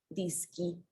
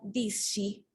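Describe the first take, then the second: First: The consonants before the final i sound hard, like sk. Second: The consonants before the final i sound soft, like sh. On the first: The word keeps the sound of the singular form. The speaker calls it right. "lo pronunciaríamos como ski" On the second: The word loses its link to the singular form. The speaker calls it wrong. "ahora se pronuncia disci"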